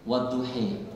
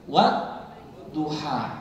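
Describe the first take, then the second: First: The word ends with an 'ee' vowel. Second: The word ends with an open 'ah' vowel. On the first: "Ini bacanya wadduhi" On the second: "disitulah dibaca wadduha"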